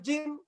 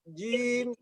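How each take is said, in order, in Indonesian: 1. Vokalnya pendek dan hampir hilang. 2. Vokalnya dipanjangkan dua harakat. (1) "rawan hilang" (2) "dipanjangin sedikit. dua harokat"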